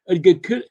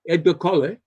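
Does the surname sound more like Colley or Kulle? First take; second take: Kulle; Colley. First: The surname sounds like Kulle. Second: The surname sounds like Colley. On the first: The speaker calls it right. "the pronunciation of Edgar Colley's name is really Edgar Kulle" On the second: The speaker calls it wrong. "we we pronounce it Colley"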